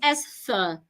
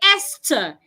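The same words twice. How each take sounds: First: The middle sound is th, tongue out. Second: The middle sound is a plain t. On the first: "the Americans would assume that is Esther" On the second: "the H is silent. You say Esther"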